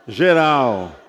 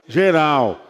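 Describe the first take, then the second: No difference in how they are said.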